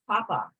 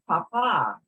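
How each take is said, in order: First: The stress is on the first syllable. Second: The stress is on the last syllable. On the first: It means potato. "if we take the accent off papa, it becomes papa, which means potato" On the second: It means father. "We've got the word papa, father"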